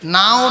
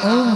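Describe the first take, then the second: First: The word ends in an open 'ow' sound. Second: The word ends in a closed 'oom' sound. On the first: The speaker calls it wrong. "নাও না বলে না" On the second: The speaker calls it right. "উম বলে"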